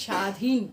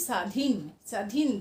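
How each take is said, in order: First: স্বাধীন said as shadhin, sh sound, no b; palatal sh. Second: স্বাধীন with a dental s against the teeth. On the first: Teacher models the right way: স্বাধীন as shadhin. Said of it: "স্বাধীন তো বলি না". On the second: Teacher shows the wrong dental s in স্বাধীন. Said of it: "দাঁতের সাথে লাগিয়ে দন্ত স". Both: Shown as a demonstration.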